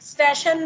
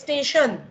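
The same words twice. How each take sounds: First: The first vowel is an open, wide e. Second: The first vowel is a close, narrow e. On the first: The speaker calls it wrong. "નથી" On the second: The speaker calls it right. "સામાન્ય ઉચ્ચારણ"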